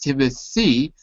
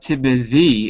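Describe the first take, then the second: First: The th sound is voiceless. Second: The th sound is voiced. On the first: The speaker calls it right. "It's voiceless" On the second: The speaker calls it wrong. "not Timothy"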